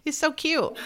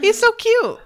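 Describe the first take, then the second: First: A touch of high cooing on "so"; cute coo. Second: Very high, loud squeal on "so"; squealing cute. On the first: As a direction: lightly gush "He's so cute" with a lifted "so". Gushing over the goldfish. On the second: To co-hosts about the goldfish, a high delighted squeal. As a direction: squeal "He's so cute" with "so" shot way up. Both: Real, not acted.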